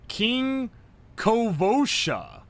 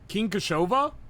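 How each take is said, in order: First: The second syllable of the name begins with 'v'. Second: The second syllable of the name begins with 'sh'. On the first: The speaker calls it right. "it's Kovosha" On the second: The speaker calls it wrong. "not Koshova"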